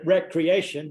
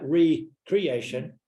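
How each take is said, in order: First: It is said as the usual single smooth word. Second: It is split into re and creation. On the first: Leisure time. "we pronounce it recreation" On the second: Creating oneself anew. "but we spell it recreation"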